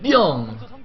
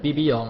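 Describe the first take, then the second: First: One opening B is said very loudly. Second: The opening B sound is said twice. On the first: The speaker calls it right. "I just have to say the one B really loudly" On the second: The speaker calls it wrong. "instead of BBYong"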